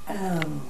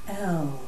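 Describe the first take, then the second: First: An open 'eh' vowel, resonant and low. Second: The same.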